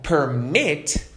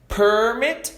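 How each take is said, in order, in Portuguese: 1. A sílaba tônica está na segunda sílaba. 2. A sílaba tônica está na primeira sílaba. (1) "se eu der ênfase no final" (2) "significa um documento dando permissão para algo"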